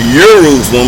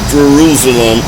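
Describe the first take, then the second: First: The word begins with a Y sound. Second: The word begins with a J sound. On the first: The speaker calls it right. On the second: The speaker calls it wrong.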